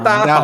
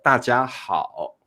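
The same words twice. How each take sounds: First: It is said quickly as one connected unit. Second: It is said slowly, syllable by syllable.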